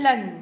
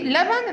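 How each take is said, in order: First: لن, the middle b of لبن dropped; sound omission. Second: Said in the usual way. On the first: Shown as a demonstration. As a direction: say لن as one syllable without b. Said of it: "حذفه أصلًا وقال لن". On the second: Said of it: "جه لبن راح قال لن".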